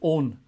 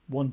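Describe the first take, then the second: First: The word is said to rhyme with 'bone'. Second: The word is said like modern 'won'. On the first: This is the pronunciation from centuries ago. "the old pronunciation, if you go back centuries, at least in this country, was own" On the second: This is the present-day pronunciation. "It wasn't one"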